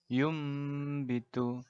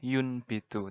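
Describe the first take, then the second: First: An m sound comes before the b. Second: An n sound comes before the b. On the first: This is how it is actually recited. "tapi kita bacanya" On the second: This follows the written letters literally. "secara letterlek tulisannya"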